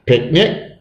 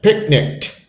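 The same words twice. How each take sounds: First: Said in the usual way. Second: Picnicked ending in a crisp kt. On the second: Shown as a demonstration. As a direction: add a t sound to the end of picnicked. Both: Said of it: "so E D sounds like t".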